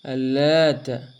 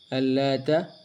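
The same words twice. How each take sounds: First: The t sound is held and doubled. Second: The t sound is short and single. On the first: It means a man who made bread for pilgrims. "dibaca dengan taknya ditasydidkan" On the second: "dibaca dengan taknya tidak ditasydidkan"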